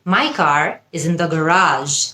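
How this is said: Garage is said with an American accent.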